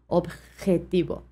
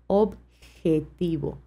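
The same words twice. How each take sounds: First: The j is a strong, harsh throaty sound. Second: The j is a soft, gentle breathy sound. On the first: This is how it is said in Spain. "une façon un peu plus forte de prononcer la J" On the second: This is how it is said in Latin America. "Beaucoup plus soft, hein, beaucoup plus doux"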